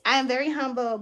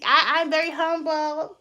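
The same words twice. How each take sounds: First: Said in the usual way. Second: Mock humble. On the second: Shown as a demonstration. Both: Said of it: "I had to get a little messy".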